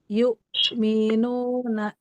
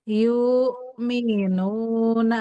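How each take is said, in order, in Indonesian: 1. Hamzahnya tegas dan tertahan penuh. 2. Hamzahnya lembut dan tidak tertahan. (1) "Dia sidah itu kuat, tegas" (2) "enggak sidah"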